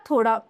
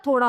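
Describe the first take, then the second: First: थोड़ा with a hard stop instead of the flap; wrong pronunciation. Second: थोड़ा with a flapped "ड़"; correct pronunciation. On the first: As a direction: say थोड़ा as "thodda". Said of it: "थोड़ा नहीं होता". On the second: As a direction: flick the tongue for ड़ in थोड़ा. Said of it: "थोड़ा होता है". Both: Shown as a demonstration.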